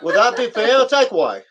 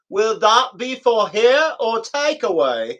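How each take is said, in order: First: It is said fast, words crammed together. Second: It is said slowly, each word separate.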